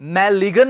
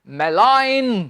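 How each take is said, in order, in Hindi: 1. n से पहले g की ध्वनि बोली जाती है। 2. n से पहले g मूक होता है। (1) "मैलिगन नहीं" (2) "इसका उच्चारण होता है स्टूडेंट्स मेलाइन"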